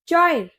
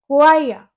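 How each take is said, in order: First: It starts with a ch sound. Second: It starts with a kw sound. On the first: The speaker calls it wrong. "इसे क्या बोलोगे आप?" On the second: The speaker calls it right. "इसकी correct pronunciation होती है कुआइया"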